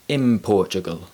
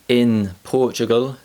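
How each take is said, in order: First: The word 'in' ends with an m sound. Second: The word 'in' ends with an n sound. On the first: "sounds like" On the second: "the n sound changes to the m sound"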